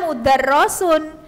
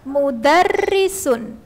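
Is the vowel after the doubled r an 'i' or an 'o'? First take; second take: o; i. First: The vowel after the doubled r is 'o'. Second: The vowel after the doubled r is 'i'. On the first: The speaker calls it wrong. "Itu bukan dibaca mudarrosun" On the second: The speaker calls it right. "maka tetap dibaca kasroh, bacanya mudarrisun"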